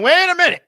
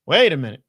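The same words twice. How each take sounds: First: Much higher, louder wait a minute; mock double take. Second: Said in the usual way. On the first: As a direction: squeal it out in mock disbelief. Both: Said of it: "Now I'm going".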